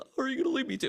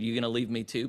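First: It sounds hurt and pleading. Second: It sounds confrontational and challenging.

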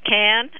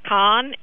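First: The name sounds like the word 'can'. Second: The name does not sound like 'can'. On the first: This is how the locals say it. The speaker calls it right. "absolutely it's Cannes, like a soup can" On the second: This is how people in the United States say it. The speaker calls it wrong. "we are pronouncing it incorrectly"

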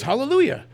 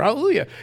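First: The word is said at a normal pace. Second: The word is said faster than normal.

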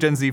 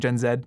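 First: The Z is said the American way, 'zee'. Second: The Z is said the Canadian way, 'zed'.

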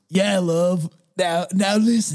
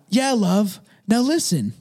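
First: It is said in a put-on grandpa voice. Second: It is read in the speaker's normal voice.

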